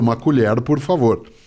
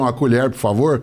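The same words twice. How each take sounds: First: It is said without the caipira retroflex R. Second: It is said in caipira accent with retroflex R.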